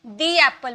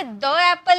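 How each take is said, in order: First: दी एप्पल with a long "dee" before एप्पल; the as "thee". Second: द एप्पल with a short "duh" before एप्पल; wrong: the with short a. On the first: Teacher models the right form, दी said long. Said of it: "दी एप्पल बोलेंगे". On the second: Teacher shows the wrong way, द said short. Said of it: "इसे द एप्पल नहीं बोलेंगे". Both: Shown as a demonstration.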